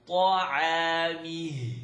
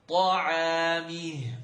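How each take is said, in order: No difference in how they are said.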